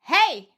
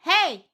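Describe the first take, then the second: First: A loud, belted, calling hey. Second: A loud, belted, calling hey.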